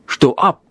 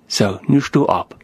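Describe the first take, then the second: First: A retold sharp order, barely raised; mild mock snap. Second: A lower, softer, gentle retold command; calm and quiet. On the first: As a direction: bark it lightly at the boy. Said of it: "schreckt er den Jungen an". (leicht gespielter, scharfer Befehl) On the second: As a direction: settle the boy with a quiet word. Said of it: "sagt er ganz ruhig". (ruhig und leise gesprochen)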